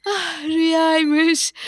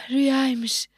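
First: Relieved sob. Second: Said in the usual way. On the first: Acted.

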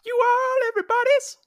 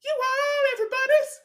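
First: High silly voice. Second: Higher silly voice. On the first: Mimicking a commercial line. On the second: Echoing the same line higher. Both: Acted.

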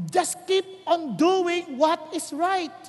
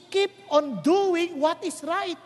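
First: Preacher repeating the principle more firmly; slower emphasis. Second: Slow, steady stress on keep; preacher urging the crowd to keep doing right; slow emphasis. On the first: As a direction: keep stressed, even slower and weightier. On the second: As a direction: lay out the principle word by word. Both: Shown as a demonstration. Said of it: "tatandaan yung prinsipyo".

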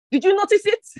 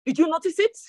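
First: "you" pushed higher and louder in "Did you notice it?"; stress on you. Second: Said in the usual way. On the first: Acted. Preacher repeats question, louder.

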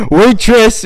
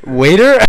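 First: Waitress punched much higher and louder; corrected word stressed. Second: Said in the usual way. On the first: Shown as a demonstration. Nephew corrects himself, punching Waitress high and loud. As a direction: hit Waitress hard as the fix. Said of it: "E S S".

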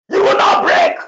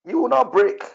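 First: Shouted promise, high and loud; forceful shout. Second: Said in the usual way. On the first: Real, not acted. Prophet shouting a promise to the congregation, forceful shout. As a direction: cry it out over the people.

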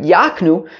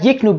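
First: Yaknu, open a in front; yak- reading. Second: Yiknu, short i in front; yik- reading. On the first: Teacher recalls the field drasha, Yaknu as YAHK-nu. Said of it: "but Yaknu". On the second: Teacher recalls rejected field reading, Yiknu as YIK-nu. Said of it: "not Yiknu". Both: Shown as a demonstration.

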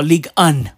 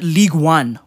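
First: "Un" said the French way; French pronunciation. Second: Said in the usual way. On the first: Shown as a demonstration. Offering the league's French name, "Un" in French pronunciation. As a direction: say "Un" as the French number one. Gives French reading as the alternative.

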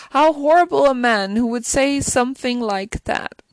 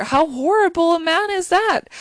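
First: Said in the usual way. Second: Indignant outburst. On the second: Real, not acted. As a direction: exclaim in disbelief at his cruelty. Outraged at the cruel father.

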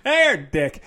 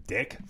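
First: A brighter, louder "Hey, dick." with a cheeky jab; mock-friendly insult. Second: Dismissive. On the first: To a troll commenter, a cheeky mock-greeting. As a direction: greet him cheerfully, then land the insult. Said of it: "Yeah, I'd be like". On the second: Pretend. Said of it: "I'd be like, "Uh".

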